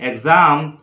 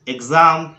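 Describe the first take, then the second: No difference in how they are said.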